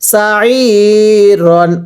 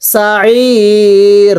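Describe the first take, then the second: First: The word ends with an n sound. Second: The word ends with a long vowel. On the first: The reading continues without stopping here. "র আলিফ দুই জবর রন" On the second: The reading stops at this word. "ওয়াকফ করলে কিভাবে পড়ব?"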